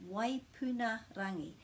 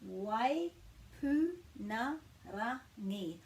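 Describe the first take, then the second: First: Said in the usual way. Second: "Waipunarangi" very slowly, each syllable apart; slow teaching breakdown of "Waipunarangi". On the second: Shown as a demonstration. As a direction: break it into Wai, pu, na, ra, ngi with small pauses. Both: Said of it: "talking about the pronunciation of the star".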